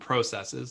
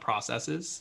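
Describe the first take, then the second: First: Processes is said with a Canadian pronunciation. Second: Processes is said with a non-Canadian pronunciation. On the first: "the Canadian term processes" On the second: "not processes"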